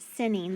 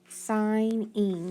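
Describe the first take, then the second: First: The first vowel is a short I sound. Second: The first vowel is a long I sound. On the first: The speaker calls it wrong. "that doesn't sound right" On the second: The speaker calls it right. "That actually makes a long I sound"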